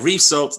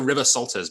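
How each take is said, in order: First: The name is said with French-style sounds. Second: The name is said with English-style sounds. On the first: The speaker calls it right. "that's much more French sounding" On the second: The speaker calls it wrong. "I always go River Salters, but it, it's not quite that"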